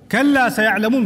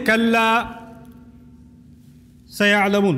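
First: The words run together without any pause. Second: There is a pause after the first word. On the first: The first word means absolutely. The speaker calls it right. "We say it in flow" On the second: The first word means a firm no. The speaker calls it wrong. "we don't say kalla sayalamun. We don't do that"

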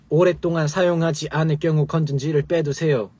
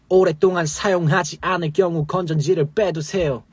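First: It is read in plain, flat Korean pronunciation. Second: It is read with rolled, English-like pronunciation. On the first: The speaker calls it wrong. "그냥" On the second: The speaker calls it right. "약간 굴려서 하는 그렇게만 하셔도 충분히 랩처럼 할 수 있습니다"

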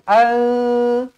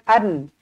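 First: The n is hidden and nasalized. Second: The n is pronounced fully and clearly. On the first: The speaker calls it right. "Dia kena al, al, itu nama dia ikhfa" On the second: The speaker calls it wrong.

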